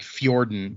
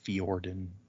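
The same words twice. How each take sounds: First: The J sounds like a Y, giving 'fyor-den'. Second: The J is silent, giving 'fee-or-den'. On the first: "The way I was saying it is like Nordic" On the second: "the J doesn't really seem to have much effect"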